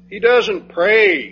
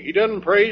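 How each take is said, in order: First: "doesn't" drawn out slowly and louder; emphatic, slow. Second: Said in the usual way. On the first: Shown as a demonstration. Preacher hammering the point that Jesus doesn't pray, slowly. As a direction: lean hard on "doesn't" and take it slow.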